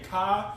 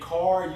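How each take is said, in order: First: The final R sound is dropped. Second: The final R sound is clearly pronounced. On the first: "you take off the R at the end of the words" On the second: "you don't say car"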